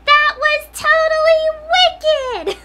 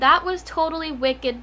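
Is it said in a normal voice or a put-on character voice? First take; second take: character voice; normal voice. First: It is said in the Incredibles boy's voice. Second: It is said in her own normal voice.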